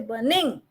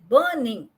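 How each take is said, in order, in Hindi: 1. बलाघात दूसरे अक्षर पर है। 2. बलाघात पहले अक्षर पर है। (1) "I don't say burning" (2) "I said burning"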